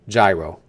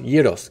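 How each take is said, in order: First: The word is said the American way. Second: The word is said the non-American way. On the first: The speaker calls it wrong. "hardcore Americans, you pronounce that as a gyro" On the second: The speaker calls it right. "It's pronounced gyros"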